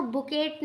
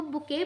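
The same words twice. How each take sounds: First: बुकेट with a sounded hard ट at the end; wrong pronunciation. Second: बुके ending on an open "ay", silent T; correct pronunciation. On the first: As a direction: say बुकेट, pronouncing the final T. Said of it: "बुकेट नहीं पढ़ेंगे". (बुकेट, आख़िर में ट बोलते हुए) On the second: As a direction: say बुके with no T sound at the end. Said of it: "इसको बुके पढ़ेंगे". (बुके, आख़िर का ट बोले बिना) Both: Shown as a demonstration.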